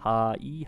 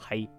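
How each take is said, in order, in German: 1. Die beiden Laute werden getrennt ausgesprochen. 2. Die beiden Laute fließen zu einem zusammen. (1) "statt H-I" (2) "also es irgendwann zu Hi wird"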